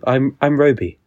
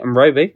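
First: It is said in an English accent. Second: It is said in an Australian accent. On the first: "It can only be said in an English accent" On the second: "Like an Australian accent, maybe"

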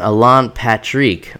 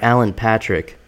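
First: The name is said with Portuguese-style pronunciation. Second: The name is said with English-style pronunciation.

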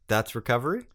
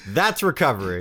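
First: The voice rises at the end, like a question. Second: The voice falls at the end, said with conviction.

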